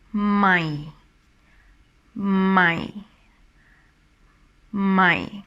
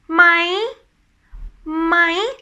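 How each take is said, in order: First: "My" drawn out, dropping to a low pitch. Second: "My" high, climbing at the end. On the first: Teacher showing how the tone drops, low sinking "My". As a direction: let "My" sink down like disappointment. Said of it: "this tone is dropping down when you pronounce it". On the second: Teacher showing climbing to the cloud, high rising "My". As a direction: climb to the peak on "My" and stay up. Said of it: "it's like you keep climbing". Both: Shown as a demonstration.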